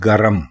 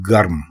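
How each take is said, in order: First: It is two syllables, with a vowel before m. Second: It is one syllable, with no vowel before m. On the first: The speaker calls it wrong. "इसको हम लोग बोलते हैं गरम" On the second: The speaker calls it right. "दुरुस्त लफ्ज है गर्म"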